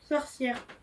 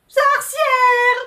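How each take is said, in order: First: It is said shyly. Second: It is said like a little cat.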